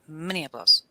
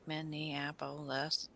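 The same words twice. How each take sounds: First: Minneapolis said quickly as one word; Minneapolis run together. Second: Slow, soft Minneapolis, every syllable separate. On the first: Host testing city names, Minneapolis run together. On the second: Host testing city names, Minneapolis slowly syllable by syllable. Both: Shown as a demonstration. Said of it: "you can't even do that with".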